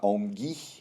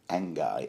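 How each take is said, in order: First: The name is said with a French-like sound. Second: The name is said in a plain English way. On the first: It sounds sophisticated. "pronounce it sort of like French" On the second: It sounds ordinary. "Angai sounds a bit banal"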